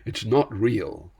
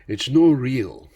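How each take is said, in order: First: It is said in the speaker's ordinary accent. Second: It is said in a strong Scottish accent.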